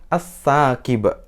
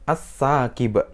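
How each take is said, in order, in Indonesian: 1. L menyatu jadi bunyi S ganda. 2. L menyatu jadi bunyi S ganda.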